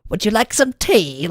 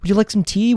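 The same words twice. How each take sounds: First: It is said in a put-on British accent. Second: It is said in the speaker's normal accent.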